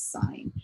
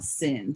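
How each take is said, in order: First: The vowel is a long i sound. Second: The vowel is a short i sound. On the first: The speaker calls it right. "this is sine ... long I" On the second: The speaker calls it wrong. "This is not sin"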